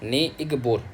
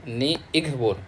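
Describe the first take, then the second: The two takes are said the same way.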